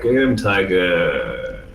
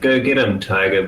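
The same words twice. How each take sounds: First: It is said slowed down, drawn out. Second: It is said at normal speed.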